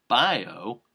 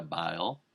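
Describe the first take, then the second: First: "bio" said clearly as BY-oh, louder; corrected bio. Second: "bio" fumbled as "bile", ending on an L; mispronounced bio. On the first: Comic redoing the fluffed Twitter joke, "bio" emphatically corrected to BY-oh. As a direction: punch out "bio" with a clear final oh. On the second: Comic fluffing a punchline about Twitter users, "bio" mispronounced as "bile". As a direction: slip on "bio" so it comes out "bile". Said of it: "Bio? No". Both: Real, not acted.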